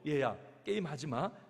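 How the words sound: It is said in a gentle, caring tone.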